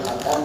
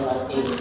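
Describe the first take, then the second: First: The second syllable has the vowel 'a'. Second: The second syllable has the vowel 'i'. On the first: "jadi boleh baca khatam" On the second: "di sini boleh baca khatim"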